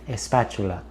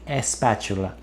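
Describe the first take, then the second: No difference in how they are said.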